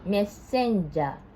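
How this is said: It is said with Japanese katakana pronunciation. "in Japanese, we pronounce like this"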